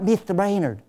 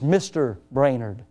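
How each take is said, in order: First: The voice is high and light. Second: The voice is low and deep. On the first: The speaker calls it wrong. "it's not" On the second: The speaker calls it right. "why don't you practice lowering your voice a little bit?"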